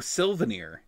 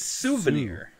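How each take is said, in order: First: The word contains an L sound. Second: The word contains no L sound. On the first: The speaker calls it wrong. "I always pronounce it with an L" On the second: The speaker calls it right. "It's souvenir"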